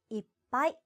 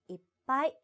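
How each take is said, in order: The two takes are said the same way.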